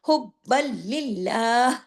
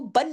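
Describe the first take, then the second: First: The word runs straight into the following l sound. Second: The word ends with a clear n sound. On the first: The speaker calls it right. "ये आगे लाम से जुड़ेगा" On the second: The speaker calls it wrong. "इसको हुब्बन नहीं पढ़ेंगे"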